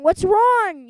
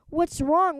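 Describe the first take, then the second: First: Higher and much louder repeat; the principal demanding an answer; full bellow; bigger yell. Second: Louder barking question; a principal storming in; stern shout; gruff yell. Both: Acted. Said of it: "yelled Mister Krupp".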